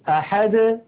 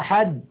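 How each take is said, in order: First: The final d is released with a slight bounce. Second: The final d is closed off abruptly. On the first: The speaker calls it right. "بل يقولون ... هكذا بالتباعد بين طرفي عضو النطق" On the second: The speaker calls it wrong. "لا يقولون"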